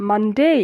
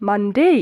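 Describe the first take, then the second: Both takes have the same delivery.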